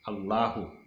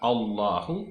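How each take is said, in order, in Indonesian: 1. Bunyi l-nya tipis dan ringan. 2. Bunyi l-nya tebal dan gelap.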